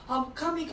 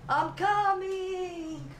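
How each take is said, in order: First: It is said in a put-on Turkish accent. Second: It is said in a put-on Italian accent. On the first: "Turkey is a little belly dance... they can have an orgasm like this" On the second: "So Italian orgasm is like this"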